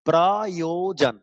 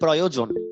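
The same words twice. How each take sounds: First: The word is split into three separate syllables. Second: The word is said smoothly without breaks.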